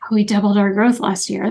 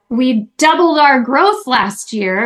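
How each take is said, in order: First: The voice sounds flat and downbeat. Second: The voice sounds triumphant and celebratory. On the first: The speaker feels uneasy about the growth. "that's a very different communication" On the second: The speaker feels good about the growth. "they say it in a way that sounds victorious and celebratory"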